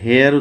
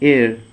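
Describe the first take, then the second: First: The word begins with an audible h sound. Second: The word begins directly with a vowel sound. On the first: The speaker calls it wrong. "এটা হেয়ার উচ্চারণ না" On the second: The speaker calls it right. "Actually এর, এরকম একটা উচ্চারণ হয়"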